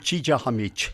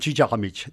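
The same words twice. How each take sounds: First: The word is said slowly. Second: The word is said at normal speed.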